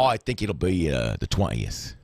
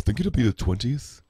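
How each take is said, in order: First: It is spoken in a Cockney accent. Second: It is spoken in a Liverpool accent. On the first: The speaker calls it wrong. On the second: The speaker calls it right.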